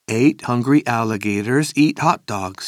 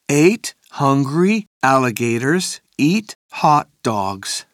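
First: It is said faster. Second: It is said at a normal speed.

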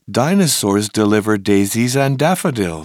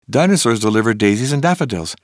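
First: The sentence is said at a fast pace. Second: The sentence is said at a very fast pace. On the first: "plus vite!" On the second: "Encore plus vite!"

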